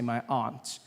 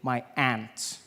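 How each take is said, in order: First: Aunt sounds different from the insect ant. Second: Aunt sounds like the insect ant. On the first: "I pronounce the opposites of uncle as aunt" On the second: "which to me is an insect"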